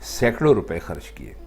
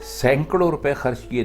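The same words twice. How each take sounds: First: The first word has no extra nasal n sound. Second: The first word has an extra nasal n sound. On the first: The speaker calls it right. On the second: The speaker calls it wrong.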